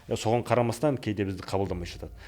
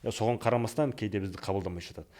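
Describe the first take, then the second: No difference in how they are said.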